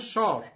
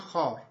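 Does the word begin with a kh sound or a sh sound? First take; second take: sh; kh. First: The word begins with a sh sound. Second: The word begins with a kh sound.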